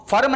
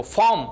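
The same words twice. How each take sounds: First: फर्म with the r sounded and an extra vowel, "fa-rum"; फर्म as "FA-rum", r fully voiced; mispronounced word. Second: फॉर्म as one syllable with a silent r, "faum"; फॉर्म with no r sound, "faum"; corrected pronunciation. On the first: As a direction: say फर्म wrongly in two beats, rolling in the r. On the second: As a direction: say फॉर्म in a single beat, long vowel straight into m. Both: Shown as a demonstration. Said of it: "फर्म नहीं पढ़ना है इसको".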